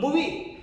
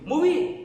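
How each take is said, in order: First: movie with a rising question tune; questioning echo. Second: movie punched higher and louder; emphatic echo. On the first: Teacher demonstrating parroting to the class, movie asked as a question. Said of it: "question mark से, mark के साथ बोलेंगे". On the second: Teacher repeating the student's answer, movie stressed hard. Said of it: "एक शब्द पर ज्यादा जोर देकर उसको दोहराएंगे". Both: Shown as a demonstration.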